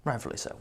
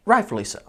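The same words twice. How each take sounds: First: Rightfully so breathed almost silently; whispered aside. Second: Said in the usual way. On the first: Shown as a demonstration. Roofer admitting fault to himself, whispered. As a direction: murmur Rightfully so to yourself.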